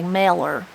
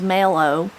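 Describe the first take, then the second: First: The word ends with an 'er' sound. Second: The word ends with an 'oh' sound. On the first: "but they would say meller" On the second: "mellow, with the O W again"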